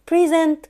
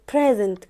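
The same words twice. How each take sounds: First: Verb "present" as pri-ZENT; stress on second syllable. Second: Noun "present" as PREZ-ent; stress on first syllable. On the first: Teacher contrasting verb with noun, "present" as pri-ZENT. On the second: Teacher contrasting noun with verb, "present" as PREZ-ent. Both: Shown as a demonstration. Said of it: "توضح لي الفرق بين".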